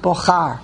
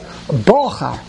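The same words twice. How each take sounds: First: The stress is on the last syllable. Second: The stress is on the first syllable. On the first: The speaker calls it wrong. "it's not mila ra" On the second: The speaker calls it right. "It's mila el"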